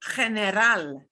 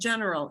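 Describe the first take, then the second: First: It is said with a throaty Spanish h sound. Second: It is said with an English j sound. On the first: The speaker calls it right. "It is general" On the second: The speaker calls it wrong. "it's not the English sound of general"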